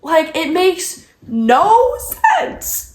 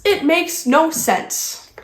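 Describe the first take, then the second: First: "no" stretched long, rising high; exasperated stress on NO. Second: Slow, falling "no sense"; resigned repeat. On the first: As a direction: drag out "no" upward in disbelief. Repeats line in exasperation. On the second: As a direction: let "no sense" drop, slowly, fed up. Repeats line, coming down. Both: Real, not acted.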